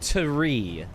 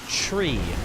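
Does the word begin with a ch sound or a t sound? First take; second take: t sound; ch sound. First: The word begins with a clear t sound. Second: The word begins with a ch sound. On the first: The speaker calls it wrong. "rather than tree" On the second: The speaker calls it right. "Most people actually say tree"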